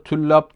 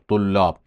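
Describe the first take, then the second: First: The first t is thin, with a fronted vowel. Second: The first t is thick, close to a d. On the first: The speaker calls it wrong. "Yanlış söylüyoruz" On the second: The speaker calls it right. "Bunu biraz D'ye yakın bir kalınlıkta söylüyoruz"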